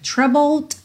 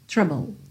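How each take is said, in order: First: The final D is clearly released. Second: The final D is dropped entirely. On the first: "ele pode aparecer mais" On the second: "ou nada"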